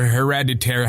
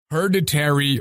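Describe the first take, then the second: First: "Hereditary" as a second guess; alternative pronunciation. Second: "Hereditary" as a first guess; first pronunciation attempt. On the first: Correcting a movie title, alternative pronunciation of "Hereditary". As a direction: try "Hereditary" another way, unsure. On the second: Naming a horror movie, unsure pronunciation of "Hereditary". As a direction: try "Hereditary" one way, unsure. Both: Shown as a demonstration. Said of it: "however you pronounce that shit".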